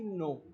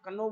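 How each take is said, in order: First: The word begins with a plain n. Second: The word begins with a sounded k. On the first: The speaker calls it right. "ना कि नो" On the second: The speaker calls it wrong. "इसका sound हमने कनो बोला है"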